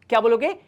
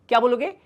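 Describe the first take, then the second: No difference in how they are said.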